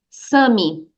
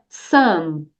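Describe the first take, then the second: First: The word is said with a Brazilian accent. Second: The word is said with an English accent. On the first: The speaker calls it wrong. "muitos estudantes brasileiros de inglês dizem some" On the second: The speaker calls it right. "Aqui é some"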